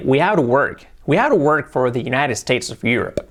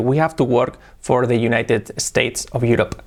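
First: "have to work" run together with English R; connected American-style "United States of Europe"; linked English. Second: "have to work" unlinked, Spanish-flavoured; slow, separated words with rolled R in "work"; exaggerated learner imitation. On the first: Shown as a demonstration. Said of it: "trabajar un poquillo el linking y decir". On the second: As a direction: overdo a Spaniard's "United States of Europe". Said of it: "lo hago un poco exagerado".

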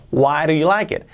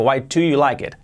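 First: "Why do you like it?" with the d as a soft flap, "wa ru"; the right, linked way. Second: "Why do you like it?" with every word separate and a clear D; the wrong, over-careful way; careful unlinked. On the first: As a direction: glide the words together smoothly. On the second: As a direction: say each word apart, unlinked. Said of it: "Ya no digo". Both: Shown as a demonstration.

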